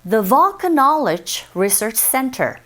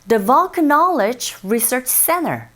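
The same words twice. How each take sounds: No difference in how they are said.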